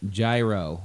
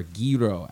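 First: "Gyro" said as JAI-roh; "Gyro" the Americanized way, JAI-roh; anglicized pronunciation. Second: "gyro" said as GHEE-roh; "gyro" their way, GHEE-roh; native-style pronunciation. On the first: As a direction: say "Gyro" with a J and a long I, like "giant". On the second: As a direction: say "gyro" with a hard G and an ee vowel. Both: Shown as a demonstration. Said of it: "as they would say".

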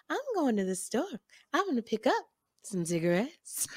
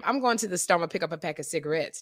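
First: Soft, melodic and rhythmic, swooping up through "pick up". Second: Said in the usual way. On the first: Retold or imitated. Friend imitates singer running to the store, sing-song lilt. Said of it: "[name] talks in, in, in sing-song". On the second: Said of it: "I would say to [name]".

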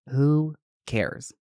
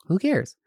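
First: "Who cares" stretched out with a gap between the words; deliberate, spaced "Who cares"; drawn-out dismissal. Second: Higher, quicker "Who cares"; brisk high-pitched "Who cares", falling at the end; quick dismissal. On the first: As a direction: draw out "Who cares" and let it fall. Dismissing fears, said twice. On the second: Dismissing fears, repeated. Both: Real, not acted.

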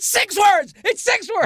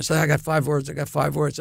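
First: High-pitched gleeful cry; excited shout. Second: Said in the usual way. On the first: Real, not acted. Proud actor shouting to his friends about his line, a high excited yell. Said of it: "exclaims his line count". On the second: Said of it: "states his line count".

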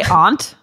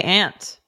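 First: Aunt said as "ahnt", open ah vowel; aunt with broad ah. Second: Aunt said as "ant", flat a vowel like the insect. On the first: Host quoting a cohost's word with a broad ah. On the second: Host showing her own way to say the word. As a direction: say aunt to rhyme with pant. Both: Shown as a demonstration. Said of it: "I say aunt".

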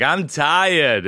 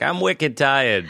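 First: Put-on high little toddler whine. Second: Put-on slow toddler in a Boston accent. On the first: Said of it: "all toddlers have a Boston accent". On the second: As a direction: drawl "wicked" like a Boston toddler. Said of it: "Boston toddlers are like".

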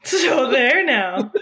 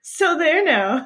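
First: Put-on slow, laughing old-fashioned taunt; old-timey tease, laughing. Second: Put-on slow, prim old-fashioned taunt; old-timey taunt. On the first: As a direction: drawl it out while laughing. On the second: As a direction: say it like a 1900s scold. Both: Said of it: "the early nineteen hundreds way of saying".

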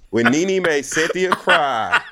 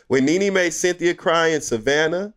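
First: Laughing through the words; giggling while speaking. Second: Said in the usual way. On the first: Real, not acted. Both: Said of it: "go ahead and laugh".

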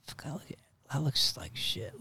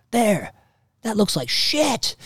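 First: Soft, half-whispered self-criticism; hushed, imitated dismay; muttered dismay. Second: Loud, high yell mimicking dad; dad's loud, high-pitched shout, acted out; imitated yell. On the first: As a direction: mutter it under your breath, deflated. Own reaction before dad's yell. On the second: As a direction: yell the blunt verdict, drawn out at the end. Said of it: "he yells like".

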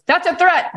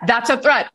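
First: Much higher, stress on "threat"; mock alarm. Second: Higher, stress on "a"; mock alarm, calmer. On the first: Mind imitated warning the body, in a high mock panic. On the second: Mind imitated warning the body, with a lighter mock alarm. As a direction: repeat it, leaning on "a". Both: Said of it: "your mind goes".

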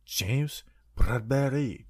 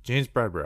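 First: Slow, whispery mock French accent. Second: Said in the usual way. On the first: Host coming back from break with the player's name, mock French accent. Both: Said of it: "I did a French accent".

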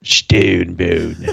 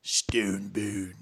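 First: Low grinding stone gravel voice; gargoyle voice. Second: Low whispered stone gravel voice; gargoyle whisper. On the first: Echoes gargoyle voice back. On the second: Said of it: "That's why a dude be like". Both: Pretend.

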